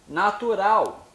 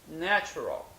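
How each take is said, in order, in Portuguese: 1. Ela é pronunciada com sons portugueses. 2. Ela é pronunciada com sons ingleses.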